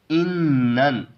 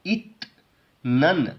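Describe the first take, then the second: First: इन नन with the t turned into n; correct reading. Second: इत नन with a t before the n; wrong reading. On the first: Teacher shows students the correct इन नन. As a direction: say इन नन, n before n. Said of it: "इसको हम पढ़ेंगे". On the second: Teacher shows students how not to read इत नन. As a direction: say इत नन keeping the t. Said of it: "पढ़ने की बजाय ऐसे हम नहीं पढ़ेंगे". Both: Shown as a demonstration.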